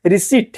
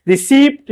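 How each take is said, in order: First: रिसिप्ट said softly as "ri-seet", silent p; correct version. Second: रिसिप्ट with the p sounded; wrong version. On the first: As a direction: model रिसिप्ट with no p. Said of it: "रिसिप्ट है". (रिसिप्ट "रिसीट", बिना "प") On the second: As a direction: show the misread रिसिप्ट. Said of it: "रिसिप्ट नहीं है". (रिसिप्ट "प" के साथ, गलत) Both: Shown as a demonstration.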